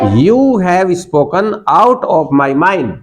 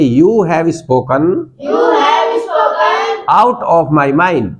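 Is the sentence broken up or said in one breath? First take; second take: one breath; broken up. First: The sentence is said smoothly in one breath. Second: The sentence is said in separate chunks.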